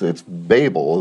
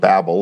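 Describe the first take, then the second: First: The word does not sound like 'babble'. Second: The word sounds like 'babble'. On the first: The speaker calls it right. "It's Babel. The word is Babel" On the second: The speaker calls it wrong. "it doesn't have two B's. It's obviously not Babel"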